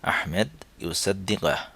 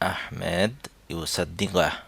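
Both takes have the same delivery.

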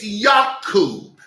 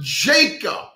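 First: The name begins with a Y sound. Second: The name begins with a J sound. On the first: The speaker calls it right. "It's Jacob" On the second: The speaker calls it wrong. "There's no J in the Hebrew alphabet. So it's not Jacob"

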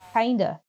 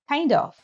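First: The word 'of' is reduced to a schwa. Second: The word 'of' is said in full. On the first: "often becomes v or even the schwa sound u" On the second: "the reduction of off"

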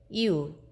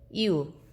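No difference in how they are said.

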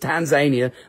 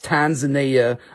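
First: The name is said the local way. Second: The name is said the outsider way. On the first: This is how people there say it. The speaker calls it right. "That's how they say it there" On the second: The speaker has not been to the country. The speaker calls it wrong.

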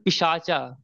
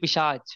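First: The word ends with a final vowel sound. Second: The word ends on a consonant, vowel dropped.

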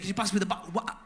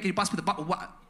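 First: 'Bottle of water' is squashed into one short word. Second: Each word of 'bottle of water' is said fully.

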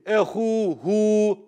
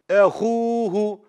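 First: The final vowel after the h is stretched long. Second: The final vowel after the h is short. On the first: The speaker calls it wrong. "I don't say ehuhu" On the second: The speaker calls it right. "That's why I don't stretch it"

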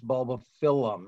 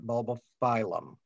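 First: The ending sounds like 'fill-um'. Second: The ending sounds like the word 'phylum'. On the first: The speaker calls it right. "It's two L's, so it's Bulbophyllum" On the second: The speaker calls it wrong. "not Bulbophyllum ... not phylum"

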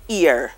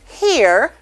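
First: The word begins with a vowel. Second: The word begins with an h sound. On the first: "when we are pronouncing these words in Creole, we drop the H" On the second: "the H is actually on the word in standard English"

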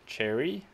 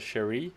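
First: The name begins with a 'ch' sound. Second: The name begins with an 'sh' sound. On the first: "like the fruit" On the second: "and then also a Sherry"

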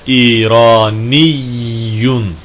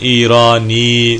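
First: The word ends with a long -iyyun ending. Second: The word ends in a short -i sound. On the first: This is the full written form. "benim okuduğum gibidir" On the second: This is how it is said in everyday speech. "şeddesi konuşma dilinde çoğunlukla ifade edilmez"

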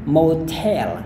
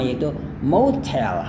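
First: The stress is on the second syllable. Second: The stress is on the first syllable. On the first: "kita bisa tekankan di bagian yang terakhir ini" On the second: "Anda juga bisa tekankan pada bagian yang pertama"

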